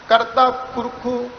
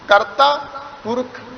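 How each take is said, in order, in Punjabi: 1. ਵਾਕੰਸ਼ ਦੇ ਅੰਤ ਵਿੱਚ ਵਾਧੂ 'u' ਸਵਰ ਲੱਗਦਾ ਹੈ। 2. ਵਾਕੰਸ਼ ਦੇ ਅੰਤ ਵਿੱਚ ਕੋਈ ਵਾਧੂ ਸਵਰ ਨਹੀਂ ਲੱਗਦਾ। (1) "ਇੰਜ ਨਹੀਂ ਕੀਤਾ" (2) "ਆਪਾਂ ਸਿੱਧਾ ਪੜ੍ਹਿਆ"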